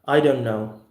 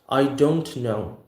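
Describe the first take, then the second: First: The t is held and the words run together. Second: Each word is pronounced clearly and separately. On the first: The speaker calls it right. "We're gonna say simply as I don't know" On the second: The speaker calls it wrong. "we're not gonna say like that in America"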